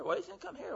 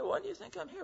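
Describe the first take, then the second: First: "do" lifted and leaned on, high and soft; stress on do. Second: "why" lifted high and leaned on, soft; stress on why. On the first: Preacher asking the next inmate, stressing "do". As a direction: hit "do" this time, quiet and high. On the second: Preacher going from guy to guy, stressing "why". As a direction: hit "why" first, quiet and high. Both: Retold or imitated. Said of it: "I went from a guy".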